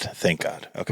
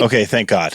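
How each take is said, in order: First: Whispered relief. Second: Said in the usual way. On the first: Shown as a demonstration. Host relieved the guest slept through the episode, whispered. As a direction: whisper thank God under the breath.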